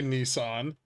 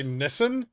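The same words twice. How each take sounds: First: Nissan as "NEE-sahn"; long ee, open ah in Nissan; long-vowel pronunciation. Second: Nissan as "NISS-un", rising question; short i and weak second vowel in Nissan; short-vowel pronunciation. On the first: Streamer asked how to say the car name, Nissan as "nee-sahn". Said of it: "What do you say, Nissan?". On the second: Streamer asking chat what they say, Nissan as "niss-un". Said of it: "How do you say Nissan?". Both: Shown as a demonstration.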